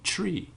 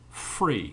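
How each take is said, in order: First: It is said in a Jamaican accent. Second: It is said in a London-area English accent.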